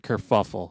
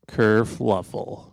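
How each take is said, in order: First: The word is said at a normal pace. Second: The word is said slowly and drawn out.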